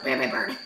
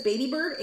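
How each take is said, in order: First: Low, growly parrot impression; deep guttural. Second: Said in the usual way. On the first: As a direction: imitate a tiny bird gone demonic. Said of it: "in this deep guttural". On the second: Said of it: "he's this little tiny high-pitched voice".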